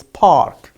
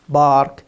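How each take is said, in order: First: "park" with puffed P; low "park" opening on aspirated P; clear P sound. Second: Slow "bark" for park, voiced B. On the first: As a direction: model "park" correctly, P not B. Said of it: "it's park". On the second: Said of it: "it's not bark". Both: Shown as a demonstration.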